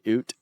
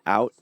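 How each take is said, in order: First: It is said in a Canadian accent. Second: It is said in an American accent. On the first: "you say oot" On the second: "we say out"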